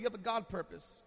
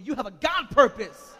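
First: Said in the usual way. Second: Louder, with conviction; said like you mean it. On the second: Shown as a demonstration. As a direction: declare it firmly and loud. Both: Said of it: "say it like you mean it".

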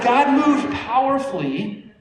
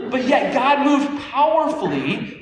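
First: Slow, high, every word leaned on; the same preaching emphasis; slow emphatic stress. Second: Slow, high and drawn out, leaning on moved; preaching emphasis, slowed right down; slow emphatic stress. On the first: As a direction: say God moved powerfully slowly and lift it. Repeats the phrase for emphasis. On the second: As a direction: stretch each word of God moved powerfully and lift the pitch. Preacher stresses God's power. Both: Real, not acted.

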